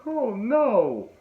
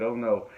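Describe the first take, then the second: First: High, drawn-out mock dismay; retold "oh no". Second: Said in the usual way. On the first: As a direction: wail it in exaggerated dismay. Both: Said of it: "they actually said".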